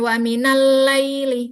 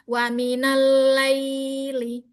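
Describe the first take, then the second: First: The 'ay' glide is rushed and clipped short. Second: The 'ay' glide flows and is slightly lengthened. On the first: The speaker calls it wrong. "Jangan terlalu cepat juga. Bukan wa minal laili" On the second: The speaker calls it right. "Tapi alirkan ya-nya"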